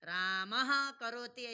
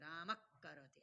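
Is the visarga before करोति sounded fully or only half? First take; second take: fully; half. First: The visarga is sounded fully before the next word. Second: The visarga is only half sounded, joining the k. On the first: "ऐसे भी बोल सकते हो" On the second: "आधा"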